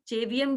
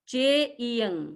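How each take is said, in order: First: A 'v' sound is inserted in the middle. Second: There is no 'v' sound in the middle. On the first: The speaker calls it wrong. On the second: The speaker calls it right.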